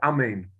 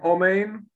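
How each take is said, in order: First: The first vowel is a short 'a' sound. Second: The first vowel is a full 'o' sound. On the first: The speaker calls it wrong. "we said it with a chataf, like amen" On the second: The speaker calls it right. "saying omen with a komatz"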